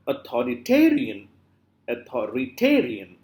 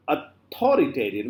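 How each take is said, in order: First: "authoritarian" with the stress on ta; correct late stress. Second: "authoritarian" stressed on tho, the rest trailing; wrong early stress. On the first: Teacher showing what we always say, stress on ta. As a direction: lean on "ta" in "authoritarian". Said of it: "We always say". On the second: Teacher showing what we never say, misplaced stress. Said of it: "we never say". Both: Shown as a demonstration.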